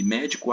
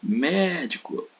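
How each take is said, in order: First: Said in the usual way. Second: Médico said slowly and high, long MÉ; médico as a call, leaning long on its first syllable; stressed syllable stretched. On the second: Shown as a demonstration. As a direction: drag out the MÉ of médico. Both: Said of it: "arrastar um pouco mais".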